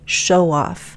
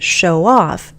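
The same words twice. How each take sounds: First: The stress falls on the first word. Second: The stress falls on the second word. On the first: It names a person. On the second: It is an action someone does.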